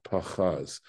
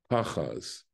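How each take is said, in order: First: "pachaz" as pa-CHAZ, second syllable stressed. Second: "pachaz" as PA-chaz, falling away; stress on first syllable. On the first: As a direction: put the weight on "chaz" in "pachaz". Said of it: "and not pachaz". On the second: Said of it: "accent's falling on the first syllable". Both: Shown as a demonstration.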